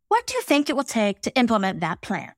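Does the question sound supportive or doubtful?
supportive. It sounds supportive and open.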